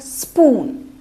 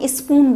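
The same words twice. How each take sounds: First: The word begins directly with an 's' sound. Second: The word begins with an extra vowel sound. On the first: The speaker calls it right. "ई हटाना है हमको and we have to speak here स्पून" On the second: The speaker calls it wrong. "स्पून को स्पून बोलते हैं"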